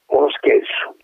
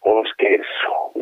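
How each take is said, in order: First: Stunned whisper. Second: Crushed repetition. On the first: Colonel repeats in disbelief. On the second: Colonel repeats, crushed. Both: Acted.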